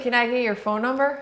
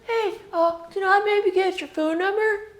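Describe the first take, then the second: First: It sounds like a Midwestern guy. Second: It sounds like a California guy.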